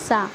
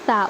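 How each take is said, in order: First: The consonant is a hissing s sound. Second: The consonant is a soft th sound. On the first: The speaker calls it wrong. "सा की आवाज़ को वो सीन की आवाज़ निकालते हैं" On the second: The speaker calls it right. "ज़बान की नोक जब ऊपर के दांतों के किनारे में लगेंगी"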